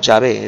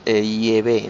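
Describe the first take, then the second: First: The name starts with a 'ya' sound. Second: The name starts with an 'ie' sound. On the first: The speaker calls it wrong. "no Yahvé" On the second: The speaker calls it right. "la verdadera pronunciación es Yahvé"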